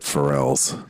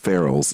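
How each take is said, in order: First: The name sounds like the singer's name. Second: The name sounds like Farrell, not the singer. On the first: The speaker calls it wrong. "Did I say [name]? ... not [name] like the singer" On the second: The speaker calls it right. "It's Farrell's"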